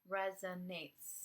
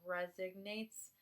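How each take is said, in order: First: The middle has no g sound. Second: The middle has an added g sound. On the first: The speaker calls it right. "Resonates, excuse me" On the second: The speaker calls it wrong. "I say like resignates and not emphasize the proper pronunciation"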